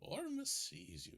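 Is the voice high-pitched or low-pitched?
high-pitched. It is said in a higher-pitched voice.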